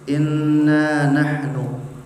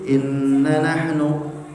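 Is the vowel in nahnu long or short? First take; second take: long; short. First: The first vowel of nahnu is drawn out long. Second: The first vowel of nahnu is cut short. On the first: The speaker calls it right. "panjang naknya" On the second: The speaker calls it wrong.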